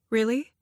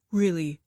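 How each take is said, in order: First: Rising, hopeful really; hopeful question. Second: Settled, sure answer; firm reassurance. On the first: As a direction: ask it half-believing, voice lifting. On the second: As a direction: confirm it calmly, no doubt. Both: A narrator's reading.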